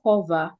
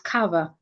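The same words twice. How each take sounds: First: The stressed vowel sounds like 'o'. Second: The stressed vowel sounds like 'ah'. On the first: The speaker calls it wrong. "not o. It is not cover" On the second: The speaker calls it right. "the vowel there is ah"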